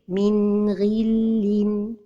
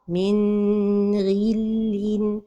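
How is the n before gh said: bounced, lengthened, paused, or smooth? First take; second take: smooth; lengthened. First: The n is short and flows smoothly on. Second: The n is held too long. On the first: The speaker calls it right. "la prononciation correcte est" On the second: The speaker calls it wrong. "c'est de prolonger son temps"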